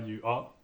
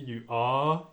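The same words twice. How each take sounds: First: The vowel in 'are' is kept short. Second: The vowel in 'are' is drawn out long. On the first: The speaker calls it wrong. "C'est pas you are" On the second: The speaker calls it right. "vous entendez you are, il y a une certaine longueur"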